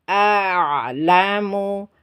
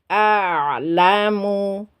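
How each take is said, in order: The two takes are said the same way.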